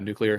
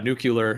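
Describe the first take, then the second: First: The word ends sounding like "clear". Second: The word ends sounding like "cular". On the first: "Because it's like the word clear" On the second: "In our generation, people always, yeah, nuclear"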